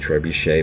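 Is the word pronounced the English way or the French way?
French. The word has a French-style pronunciation. "in the French pronunciation it would be trebuchet"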